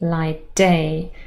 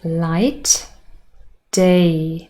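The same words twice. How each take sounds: First: The t is dropped and only d is heard. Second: The t at the end of light is pronounced.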